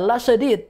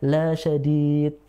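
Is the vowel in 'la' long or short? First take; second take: short; long. First: The vowel in 'la' is kept short. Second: The vowel in 'la' is drawn out long. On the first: It is truly painful. The speaker calls it right. "Yang harusnya" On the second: It is not painful. The speaker calls it wrong. "Lanya panjang"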